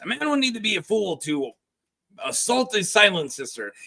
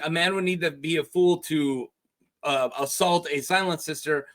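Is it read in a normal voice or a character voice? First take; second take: character voice; normal voice. First: It is read in a put-on character voice. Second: It is read in the reader's normal voice.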